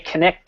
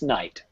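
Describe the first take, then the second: First: The word starts with a pronounced k sound. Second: The word starts with an n sound. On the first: This is how it was said centuries ago. The speaker calls it wrong. "We don't say connect anymore. We did five hundred years ago" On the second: This is how it is said today. The speaker calls it right. "It's night"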